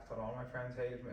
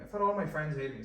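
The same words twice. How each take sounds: First: Said in the usual way. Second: Emphatic repeat. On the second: Shown as a demonstration.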